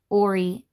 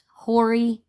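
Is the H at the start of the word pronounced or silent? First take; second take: silent; pronounced. First: The word begins without any H sound. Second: The word begins with an audible H sound. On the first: The speaker calls it right. "the H is silent" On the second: The speaker calls it wrong. "you pronounce the H"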